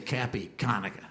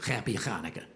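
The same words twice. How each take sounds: First: "Happy Hanukkah" with a plain hard K. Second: "Happy Hanukkah" with a guttural ch; throaty ch Hanukkah. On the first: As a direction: say "Hanukkah" with a flat English k. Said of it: "They'll say". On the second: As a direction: rasp the ch in "Hanukkah". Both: Shown as a demonstration.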